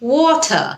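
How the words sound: It is said in a British accent. "ব্রিটিশরা এটাকে ওয়াটার এভাবে বলে"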